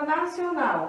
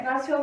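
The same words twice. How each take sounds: First: Said in the usual way. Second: "Nacional" with a very long NAL; stress on last syllable. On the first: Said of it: "que é a nossa sílaba forte". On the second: Shown as a demonstration. Teacher showing the sílaba forte of nacional, "Nacional" with NAL stretched out. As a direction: hold the final NAL of "Nacional" for a long beat. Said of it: "A última sílaba, que é o nau".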